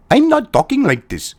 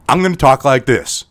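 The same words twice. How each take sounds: First: Higher-pitched put-on Indian accent; caricatured Indian accent; mock Indian accent. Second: Put-on neutral American accent, lower pitch; accent-neutral American delivery. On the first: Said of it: "Him talking with an American accent". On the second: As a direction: switch to a plain American accent. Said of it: "talking with an American accent".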